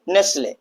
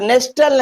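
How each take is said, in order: First: The t sound is silent. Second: The t sound is clearly pronounced. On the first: The speaker calls it right. "क्या पढ़ेंगे" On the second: The speaker calls it wrong. "तो नेस्टल नहीं पढ़ेंगे"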